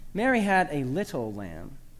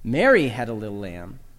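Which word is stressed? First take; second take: little; Mary. First: The word "little" carries the main stress. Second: The word "Mary" carries the main stress. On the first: The lamb's small size is what matters. "Emphasize the fourth word to make much of the lamb's diminutive stature" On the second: It was not someone else who had the lamb. "Emphasize the first word"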